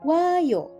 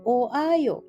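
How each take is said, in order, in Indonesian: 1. Vokalnya digabung dengan cepat menjadi satu bunyi luncur. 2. Vokalnya diucapkan terpisah, dalam dua bagian.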